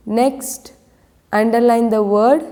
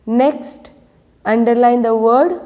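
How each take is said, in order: Both takes have the same delivery.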